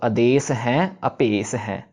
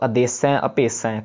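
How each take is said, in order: First: The final 'hain' is voiced as a separate syllable. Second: The final 'hain' merges into the preceding word. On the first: The speaker calls it right. "हैं अलग से है तो उसको भी आवाज उसकी देनी है" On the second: The speaker calls it wrong. "ऐसे नहीं करना हमने"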